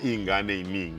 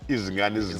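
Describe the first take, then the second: First: It is said with little emphasis on Z sounds. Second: It is said with strongly emphasised Z sounds.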